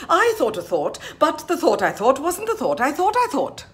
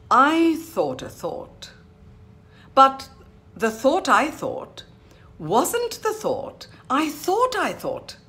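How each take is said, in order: First: THOUGHT twister high and loud in one run; even faster. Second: I THOUGHT A THOUGHT slow, high and exaggerated; phrase by phrase. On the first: Teacher showing the final speed, fast. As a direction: race through THOUGHT phrases, keeping the swoops. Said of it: "go even faster". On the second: Teacher introducing a twister, slow phrasing. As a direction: give each THOUGHT phrase meaning, pausing after BUT. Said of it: "spoken phrase by phrase". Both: Shown as a demonstration.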